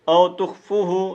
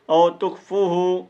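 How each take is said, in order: No difference in how they are said.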